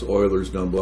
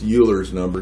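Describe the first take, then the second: First: The name is pronounced unlike the way it looks. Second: The name is pronounced the way it looks. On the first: The speaker calls it right. "but I guess it's pronounced Euler's number" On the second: The speaker calls it wrong. "for years I always pronounced this Euler's number because it looks more like Euler's to me"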